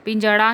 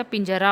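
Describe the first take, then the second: First: पिंजड़ा with flapped ṛ; wrong pronunciation. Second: पिंजरा with a plain r; correct pronunciation. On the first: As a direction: say पिंजड़ा as pinjaṛa. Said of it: "पिंजड़ा नहीं होता". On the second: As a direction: say पिंजरा as pinjara. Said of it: "पिंजरा होता है". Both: Shown as a demonstration.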